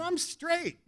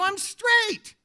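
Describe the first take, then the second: First: High, soft disclaimer; sheepish high-pitched denial; awkward protest. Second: Very high, insistent denial; mock-panicked high insistence; emphatic protest. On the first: Retold or imitated. First protest of misunderstood offer. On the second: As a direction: protest harder, voice jumping right up. Repeats protest more emphatically.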